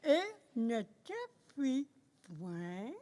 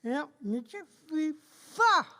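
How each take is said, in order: First: Wrong word point, pencil in mouth; pen in teeth. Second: Corrected to pas, pencil in mouth; pen in teeth. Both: Real, not acted. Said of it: "avec un crayon dans la bouche".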